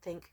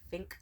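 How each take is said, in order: First: The word is said in a plain accent. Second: The word is said in a German accent. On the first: "he doesn't say think" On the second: "he has a sexy German accent"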